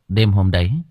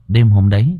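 First: The voice sounds clearer with reduced bass. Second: The voice sounds boomy with heavy bass. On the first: The speaker calls it right. "Nó đỡ hơn chưa các bạn?" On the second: The speaker calls it wrong. "Nó hơi ồm ồm đúng không, nó hơi nhiều bát hả?"

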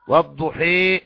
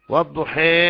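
First: The final vowel is bent fully toward 'ee'. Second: The final vowel lies between 'a' and 'ee'. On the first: "إمالة الألف للياء" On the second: "التقليل فتح الشفاه مع الإمالة"

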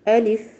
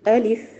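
First: The glottal stop is pressed, the vowel short. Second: The same.

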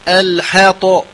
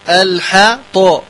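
Both takes have the same delivery.

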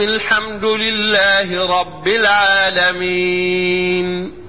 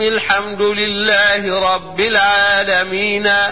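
First: The last word ends on a silent consonant. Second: The last word ends with a vowel. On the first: The speaker calls it right. "تقف هكذا" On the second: The speaker calls it wrong. "ما يجيش مثلا نقرأ مثلا سورة زي سورة الفاتحة ونقرأها هكذا"

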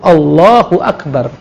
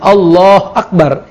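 First: Allah is joined to Akbar with an u vowel. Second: Allah ends without a vowel before Akbar. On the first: The speaker calls it right. "Tapi kan disambung" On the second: The speaker calls it wrong. "Jadi bukan Allah Akbar"

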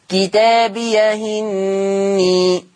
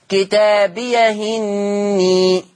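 Both takes have the same delivery.

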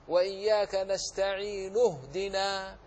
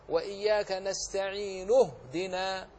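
Both takes have the same delivery.

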